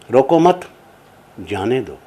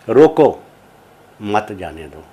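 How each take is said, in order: First: The pause comes right after 'mat'. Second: The pause comes right after 'roko'.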